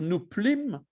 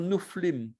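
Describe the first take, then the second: First: The inner consonant is a p sound. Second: The inner consonant is an f sound. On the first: The speaker calls it wrong. "on ne va pas dire" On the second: The speaker calls it right. "on va dire"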